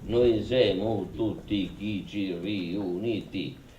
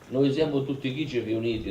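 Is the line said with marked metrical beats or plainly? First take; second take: marked beats; plain. First: The sixth and tenth syllables carry heavy beats. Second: It is spoken plainly, without marked beats.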